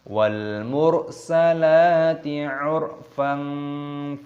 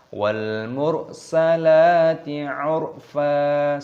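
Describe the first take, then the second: First: The last word ends with a softened nasal n. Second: The last word ends on a long open a. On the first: The verse runs straight on into the next one. "kalau kita gandengkan dengan ayat sebelumnya" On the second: The reciter stops at the end of the verse. "kalau kita berhenti waqaf"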